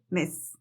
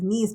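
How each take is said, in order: First: The vowel is a lax sound close to 'e'. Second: The vowel is a tense Spanish-like 'i' sound. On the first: The speaker calls it right. "es una E" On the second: The speaker calls it wrong. "No es miss con la I"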